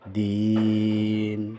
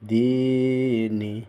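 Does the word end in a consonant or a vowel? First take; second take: consonant; vowel. First: The word ends on a consonant. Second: The word ends with a short vowel.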